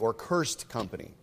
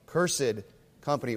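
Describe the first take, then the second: First: Cursed is pronounced in a modern way. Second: Cursed is pronounced in an old-fashioned way.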